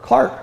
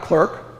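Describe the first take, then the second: First: The vowel sounds like 'ar' in 'car'. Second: The vowel sounds like 'er' in 'her'. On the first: The seventeenth-century way of saying it. The speaker calls it right. "that's how you pronounced it" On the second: The modern way of saying it. The speaker calls it wrong. "Not clerk"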